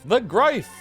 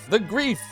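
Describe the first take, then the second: First: The name is not said like 'grief'. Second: The name is said like the word 'grief'. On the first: "Am I even saying it right?" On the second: "What if it's grief?"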